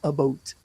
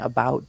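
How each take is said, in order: First: It is said in a Canadian accent. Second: It is said in a plain standard accent. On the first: "they go about about" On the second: "instead of saying about"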